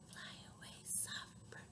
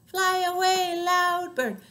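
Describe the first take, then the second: First: Barely audible whisper; soft. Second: High, loud chanting. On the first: Sending the soft bird away, tiny whisper. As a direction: whisper it as gently as possible. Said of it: "One named Soft". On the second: Sending the loud bird away, loud chant. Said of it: "the other named Loud". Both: Shown as a demonstration.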